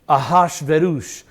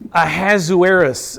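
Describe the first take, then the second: First: The name is said in a Hebrew form. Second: The name is said in the common English form. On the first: "A good Hebrew would pr- pronounce it Ahashverosh" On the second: "that's how most people pronounce that"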